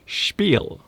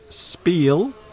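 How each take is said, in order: First: The word is said with a German pronunciation. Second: The word is said with an English pronunciation. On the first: "in the form that it's supposed to be pronounced, spiel, which is German" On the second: "Some people will pronounce it spiel"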